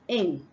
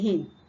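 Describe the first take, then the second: First: The word begins directly with the vowel. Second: The word begins with an added h sound. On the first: The speaker calls it right. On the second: The speaker calls it wrong.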